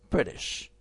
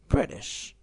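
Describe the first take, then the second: No difference in how they are said.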